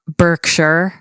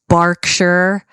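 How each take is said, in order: First: The first syllable has an 'er' vowel, like 'bur'. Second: The first syllable has an 'ar' vowel, like 'bar'. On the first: The speaker calls it wrong. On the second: The speaker calls it right. "if you see an E R, it's very rarely pronounced er"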